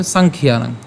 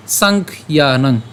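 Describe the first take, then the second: First: "সাংখ্যানং" run together as sankhyanang; unbroken pronunciation. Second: "সাংখ্যানং" in two slow parts, sankh, then yanang; broken pronunciation. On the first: Teacher says it without breaking, joined-up "সাংখ্যানং". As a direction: say "সাংখ্যানং" in one go, no break after kh. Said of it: "যদি না ভেঙে উচ্চারণ করতে যাই". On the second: Teacher puts the halves together, broken "সাংখ্যানং" as sankh, yanang. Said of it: "আমরা খ পর্যন্ত উচ্চারণ করলাম". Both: Shown as a demonstration.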